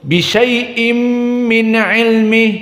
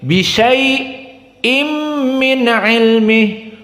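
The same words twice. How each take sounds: First: Syai runs straight into the next word. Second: There is a brief stop after syai. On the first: This follows the majority reading tradition. "tidak dibaca seperti jumhur" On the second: This follows one reading tradition. "tetap as-sakt"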